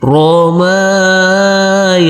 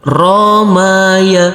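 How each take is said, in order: First: The second and last syllables are held long. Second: Every syllable is said with a short vowel. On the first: "yang kita baca panjang yaitu huruf mim dan huruf ya" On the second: "semuanya kita baca pendek"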